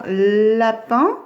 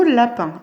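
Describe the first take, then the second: First: Lapin with a long "lll" at the start; drawn-out initial L. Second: Said in the usual way. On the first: Shown as a demonstration. Teacher helping pupils find the sound, lapin with stretched L. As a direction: linger on the L of "lapin". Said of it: "on cherche le son L". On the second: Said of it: "dans le mot lapin".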